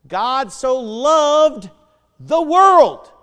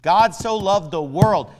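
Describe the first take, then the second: First: Slow, then "the world" shouted high and much louder; preaching shout. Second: Said in the usual way. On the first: Acted. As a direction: stretch "God so loved", then blast "the world". Verse climaxes in a shout.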